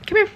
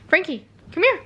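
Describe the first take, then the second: First: Said in the usual way. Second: High, rising call to the kitten; coaxing a kitten to come; calling the cat. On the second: Real, not acted. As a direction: sing his name up to lure him over.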